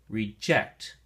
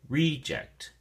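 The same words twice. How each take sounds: First: The stress is on the second syllable. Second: The stress is on the first syllable. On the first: It is used as a verb. "If you use it as a verb, then the emphasis or stress is on the second syllable" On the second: It is used as a noun. "the noun form, the emphasis or stress is on the first syllable"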